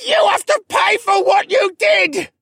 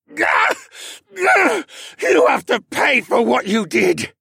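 First: High, very loud hoarse shriek; agonized screech. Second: Higher, louder, forced out through effort; strained grunt. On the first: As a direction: shriek it with everything left. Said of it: "he screeched". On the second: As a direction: grunt the words out in pain. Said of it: "Cad grunted". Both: Acted.

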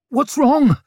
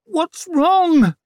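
First: High, loud panicky question; stammered alarm. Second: Very high, loud, drawn-out demand; pained demand. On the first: Father against the wall by the bed, alarmed stammer. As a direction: blurt it out, frightened and helpless. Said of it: "stammered Leo". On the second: Mother in agony demanding answers from surgeon, strained demand. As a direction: wail the demand through gritted teeth. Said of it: "hissed Savine through her gritted teeth". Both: A narrator's reading.

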